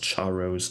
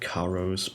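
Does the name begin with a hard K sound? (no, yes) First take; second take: no; yes. First: The name starts without a hard K sound. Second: The name starts with a hard K sound. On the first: "If you pronounce Charos like that" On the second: "I can also pronounce it like Karos, but uh, that sounds weird"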